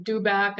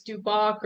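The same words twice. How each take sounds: First: Dubac said DOO-back, open "a" ending; alternative pronunciation. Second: Duboc said DOO-bock, rounded second vowel; first pronunciation option. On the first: Unsure presenter offering the other option, Dubac as DOO-back. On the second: Unsure presenter offering a name's pronunciation, Duboc as DOO-bock. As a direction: say Duboc to rhyme with "rock". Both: Shown as a demonstration. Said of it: "I don't know if I'm pronouncing this right".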